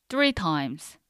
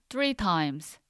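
No difference in how they are said.

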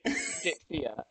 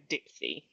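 First: The name ends in an 'ee-ah' sound. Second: The name ends in a plain 'ee' sound. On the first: A fancy, high-fashion way of saying the name. "if you're couture and you want to be extra, then" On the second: A casual, everyday way of saying the name. "I'm more off the rack... so I'm going for Dipsy"

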